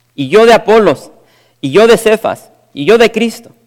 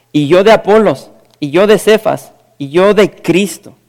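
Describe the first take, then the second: No difference in how they are said.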